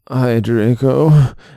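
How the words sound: It is said in a depressed, gloomy voice.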